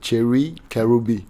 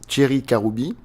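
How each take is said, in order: First: The name is said with an American accent. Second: The name is said with a French accent. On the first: "with a more American accent, it would be something like" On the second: "his name with a French accent is"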